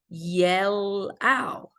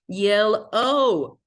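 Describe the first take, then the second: First: The last vowel sounds like 'ow' in out. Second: The last vowel sounds like 'oh' in goal. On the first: The speaker calls it wrong. "is it making the O sound or is it making the ow sound?" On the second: The speaker calls it right. "Oh, it's yellow"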